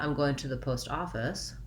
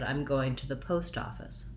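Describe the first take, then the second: First: The main stress falls on the word office. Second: The main stress falls on the word post. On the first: The speaker calls it wrong. "So not" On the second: The speaker calls it right. "Primary stress on post, secondary stress on off"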